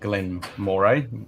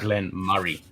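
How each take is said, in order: First: The second word is said as it is spelled. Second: The second word is said like 'Murray'. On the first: The speaker calls it wrong. "Everyone pronounces it Glen Moray as it reads on the box" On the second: The speaker calls it right. "but it's actually"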